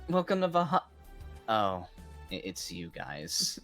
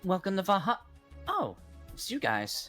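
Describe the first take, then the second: First: The line sounds flat and unenthusiastic. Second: The line sounds bright and cheerful.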